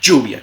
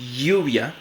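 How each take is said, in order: First: The ll is a voiced j-like affricate. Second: The ll is a voiced palatal fricative. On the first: "africada postalveolar sonora" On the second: "una fricativa palatal sonora"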